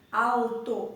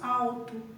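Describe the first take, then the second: First: The L is said as a clear consonant. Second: The L is said like a vowel u. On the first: "Se fosse para nós expressarmos com exatidão a letra L" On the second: "o nosso modo de falar"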